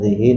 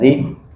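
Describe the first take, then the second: First: The final vowel is a short i. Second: The word ends without a final vowel. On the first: "dengan dibaca kasrah" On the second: "dengan dibaca sukun"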